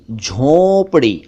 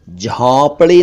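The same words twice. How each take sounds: First: झोंपड़ी with a long rounded "o"; pure "oh" in झोंपड़ी; correct झोंपड़ी. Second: झोंपड़ी with open "au"; "aw" in the first syllable of झोंपड़ी; mispronounced झोंपड़ी. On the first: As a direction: say झोंपड़ी slowly as "jhonpri". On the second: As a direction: say झोंपड़ी wrongly as "jhaunpri". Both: Shown as a demonstration. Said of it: "झोंपड़ी नहीं".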